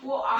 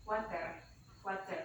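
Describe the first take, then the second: First: "woa" said British, with no t and no r at the end; British accent. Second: American "Water" with a flapped, soft t; American accent. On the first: Teacher showing the British "woa" for water, laughing. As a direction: drop the t and the r in "woa". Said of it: "aksen British bukan water". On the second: Teacher demonstrating the American "Water" for students. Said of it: "Itu aksen Amerika". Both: Shown as a demonstration.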